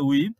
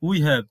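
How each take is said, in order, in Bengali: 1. শব্দ দুটি মিলে একটি সংকুচিত দলে পরিণত হয়। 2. দুটি আলাদা শব্দ পুরোটা বলা হয়।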